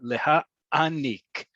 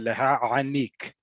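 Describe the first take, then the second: First: The ayin is a brief glottal stop pause. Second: The ayin is a deep, throaty guttural sound. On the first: This is the modern standard pronunciation. "You need to pause there" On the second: The speaker comes from an Arabic-speaking background. "to really emphasize it's there's an ayin in there"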